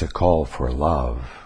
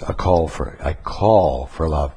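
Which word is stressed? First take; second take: love; call. First: The word love carries the main stress. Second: The word call carries the main stress. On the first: The focus is on responding with love. The speaker calls it right. "The word love needs to be the thing emphasized" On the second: The focus is on the other person's bad behavior. The speaker calls it wrong. "Right now you tend to emphasize the word call"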